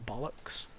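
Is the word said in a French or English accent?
French. It is said in a French accent.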